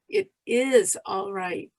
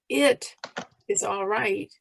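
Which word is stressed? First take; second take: is; It. First: The stress falls on the word is. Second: The stress falls on the word it. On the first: "emphasize each word separately" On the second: "emphasize each word separately"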